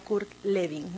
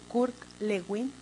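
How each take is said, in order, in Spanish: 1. El nombre se dice con pronunciación alemana. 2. El nombre se lee exactamente como se escribe. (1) "si fuera eh, el caso de que es alemán" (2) "yo la pronuncio tal cual la leo"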